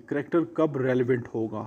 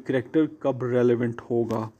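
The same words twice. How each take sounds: The two takes are said the same way.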